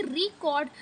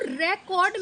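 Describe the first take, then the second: First: record as ri-KORD, second syllable stressed. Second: record as REK-ord, first syllable stressed. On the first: Teacher showing students second-syllable stress in record. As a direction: put the weight on KORD in record. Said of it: "second पे पड़ेगा". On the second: Teacher showing students first-syllable stress in record. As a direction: lean on the opening syllable of record. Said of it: "first पर क्या". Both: Shown as a demonstration.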